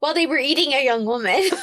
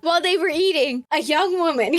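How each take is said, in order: First: It runs on with no pause after eating. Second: There is a clear pause after eating. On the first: They were eating a young woman. The speaker calls it wrong. "You need to work on your timing" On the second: A young woman approached them while they ate. The speaker calls it right. "Do you hear it now?"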